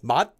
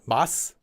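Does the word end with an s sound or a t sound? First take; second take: t sound; s sound. First: The word ends with a t sound. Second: The word ends with an s sound. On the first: The speaker calls it right. "Mat for flavor is mat" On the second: The speaker calls it wrong. "not mas"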